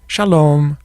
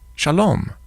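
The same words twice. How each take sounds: First: The intonation sounds like a farewell. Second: The intonation sounds like a greeting. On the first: It says goodbye. "how I change my intonation, how my voice goes up and down" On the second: It says hello. "how I change my intonation, how my voice goes up and down"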